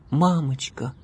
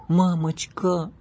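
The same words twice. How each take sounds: First: Put-on higher, begging child; pleading. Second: Put-on higher, slow, begging child; drawn-out pleading. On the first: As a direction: beg mom sweetly. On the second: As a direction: stretch the plea out slowly. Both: A narrator's reading. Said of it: "умоляющим тоном произнесла девочка".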